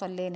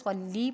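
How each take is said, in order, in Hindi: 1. शब्द का अंत छोटे 'e' स्वर से होता है। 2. शब्द का अंत 'ee' स्वर से होता है। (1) "स्वल्ले नहीं पढ़ेंगे" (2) "स्वल्ली पढ़ेंगे"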